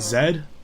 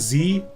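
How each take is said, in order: First: The letter is said the Canadian way. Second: The letter is said the American way. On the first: "Canadians and English people say Z" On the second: "Americans say Z"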